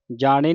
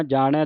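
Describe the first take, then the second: First: ਜਾਣੇ ending in a closed "e"; wrong vowel ending. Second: ਜਾਣੈ ending in an open "ai". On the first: Teacher shows the misreading, ਜਾਣੇ with closed final "e". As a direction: say ਜਾਣੇ with a narrow final "ay" sound. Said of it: "ਨਹੀਂ ਪੜ੍ਹਨਾ". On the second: Teacher shows the correct reading, ਜਾਣੈ with open final "ai". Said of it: "ਦਲਾਵਾਂ ਦੇ ਨਾਲ ਉਚਾਰਨ ਕਰਨਾ". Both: Shown as a demonstration.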